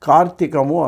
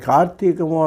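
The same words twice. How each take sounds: First: The second syllable has a short vowel. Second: The second syllable has a long vowel. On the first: The speaker calls it right. "దీర్ఘం లేదండి ... కార్తీకము అనాలి" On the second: The speaker calls it wrong. "కార్తీకము అనకూడదు"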